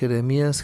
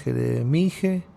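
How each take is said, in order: First: The name ends with an 'ías' sound. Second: The name ends with an 'ije' sound. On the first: The name ends with the short form of Yahweh. The speaker calls it right. "y Jeremías" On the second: The name would end with the short form of Jehovah. The speaker calls it wrong. "sería una desviación entonces"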